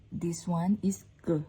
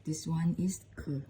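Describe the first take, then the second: First: "K" as a hard, unbreathed g-like sound; first letter sound. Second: "K" with a puff of air, as K H; K H sound. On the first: Teacher comparing two Lao letters, "K" said like a hard G. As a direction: say "K" close to a G. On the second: Teacher comparing two Lao letters, "K" said as aspirated K H. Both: Shown as a demonstration. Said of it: "we can pronounce same K H".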